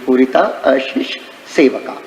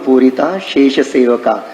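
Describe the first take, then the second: First: A separate 'a' is heard before shesh. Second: The vowel merges, sounding like purita shesh. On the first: "पूरिता अशेष सेवका ऐसे आता है" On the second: "उच्चारण ऐसे करते अपन"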